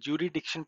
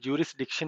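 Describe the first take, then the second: First: The s sound in the middle is silent. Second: The s sound in the middle is pronounced. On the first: "यानी को एस silent रखते हैं" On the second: "इसको जूरिसडिक्शन ही कहते हैं"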